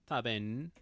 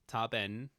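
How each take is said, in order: Both takes have the same delivery.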